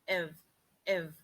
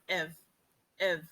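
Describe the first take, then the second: No difference in how they are said.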